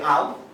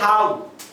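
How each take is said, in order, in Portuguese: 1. A palavra é dita com pronúncia portuguesa. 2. A palavra é dita com sotaque do inglês britânico. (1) "halo no português pode ser halo" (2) "de acordo com a pronúncia britânica pode ser halo"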